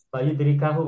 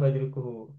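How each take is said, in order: First: The vowel before the final hu is a. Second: The vowel before the final hu is u. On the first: The speaker calls it right. "bacanya yang betul adalah fa'idrikahu" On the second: The speaker calls it wrong. "bukan fa'idrikuhu"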